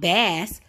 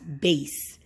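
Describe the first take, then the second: First: Bass is said as the fish name. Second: Bass is said as the deep-sound word. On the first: It names a type of fish. "bass refers to a type of fish" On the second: It names a deep tone or sound. "it also can pre- be pronounced bass. And bass, it means like the tone of something"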